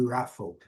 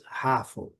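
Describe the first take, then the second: First: "raffle" said as rafol, with a rounded English r; correct raffle. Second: "raffle" said as hafo, with a Portuguese r and an o ending; Brazilian raffle. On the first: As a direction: say "raffle" with pursed lips on the r. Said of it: "mas não é, é raffle". ("raffle" com biquinho no R) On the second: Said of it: "nós temos o hábito de dizer". ("raffle" dito como hafo, à brasileira) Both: Shown as a demonstration.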